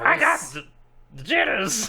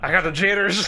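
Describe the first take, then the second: First: It is said in a Joker impression. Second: It is said in a non-Joker voice.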